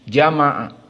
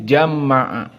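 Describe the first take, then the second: First: The 'm' sound is short and single. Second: The 'm' sound is held long and doubled. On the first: "tanpa ditasdid" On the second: "dengan membaca tasdid"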